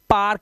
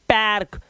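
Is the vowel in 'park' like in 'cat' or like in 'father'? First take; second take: father; cat. First: The vowel sounds like the vowel in father. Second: The vowel sounds like the vowel in cat. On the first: The speaker calls it right. "इसे पार्क बोलते हैं" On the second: The speaker calls it wrong. "इसलिए इसे पैर्क नहीं बोलते"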